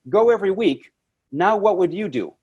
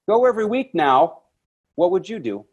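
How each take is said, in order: First: A pause comes before 'now', which starts the question. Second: 'Now' runs on without a pause before it. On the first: The speaker calls it right. "there's a period there" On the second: The speaker calls it wrong. "you say it like it's in the same sentence"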